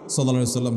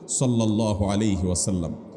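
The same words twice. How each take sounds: First: It is said in a hurried rush. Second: It is said slowly and with love.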